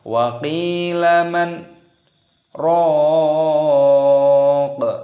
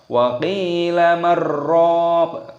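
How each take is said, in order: First: A brief breathless pause separates man and raq. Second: Man and raq are merged without any pause. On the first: The speaker calls it right. "berhenti tidak bernafas ... seperti itu" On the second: The speaker calls it wrong. "Jangan kita baca ... bukan seperti itu"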